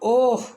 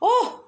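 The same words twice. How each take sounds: First: The voice sounds angry. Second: The voice sounds surprised.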